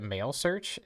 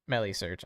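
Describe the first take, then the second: First: The first part sounds like the word male. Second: The first part does not sound like male. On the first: "it's like in the word male" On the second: "That sounds better"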